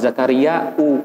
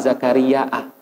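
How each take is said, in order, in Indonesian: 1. Nama itu berakhir dengan vokal 'u'. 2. Nama itu berakhir dengan vokal 'a'. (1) "sebagai fa'il" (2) "sebagai objek"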